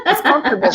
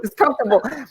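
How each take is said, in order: First: English vowels, raised pitch and a laugh; correct English accent. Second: Put-on Spanish-accented English. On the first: Shown as a demonstration. Teacher showing a student the English comfortable, in an English accent. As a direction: say comfortable the English way, comfortable with the stress up front. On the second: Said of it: "como tú".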